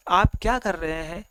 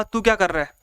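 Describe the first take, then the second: First: Mildly softened, polite demo; loving request. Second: Mildly angry demo of a rude question. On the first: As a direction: ask it kindly, as a gentle request. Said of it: "ये प्यार से पूरा request कर रहा है". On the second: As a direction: snap it like a scolding teacher. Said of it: "ये गुस्से में बोल रहा है". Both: Shown as a demonstration.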